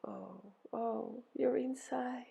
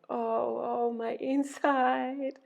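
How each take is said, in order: First: Hushed, high sympathetic moan; soft echoed moan. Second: High, drawn-out moan. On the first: Helpers echo Ereshkigal's pain, soft empathetic moan. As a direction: moan it back softly in empathy. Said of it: "They moaned". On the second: Ereshkigal moaning over her inside, long high moan. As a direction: moan the words slowly, pitch lifted. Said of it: "Ereshkigal was moaning". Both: A narrator's reading.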